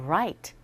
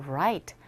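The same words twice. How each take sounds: Both takes have the same delivery.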